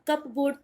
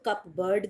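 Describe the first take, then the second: First: It sounds like cup plus board. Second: It sounds like cup plus bird. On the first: "अब कप बोर्ड तो आप बोलेंगे नहीं" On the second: "कुछ लोग इसको कप बर्ड भी कहते हैं, एंड बोथ आर रॉन्ग"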